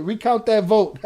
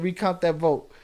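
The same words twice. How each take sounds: First: Laughing loud read. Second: Said in the usual way. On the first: Real, not acted. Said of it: "That's funny". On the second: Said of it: "Eddie Jimenez said".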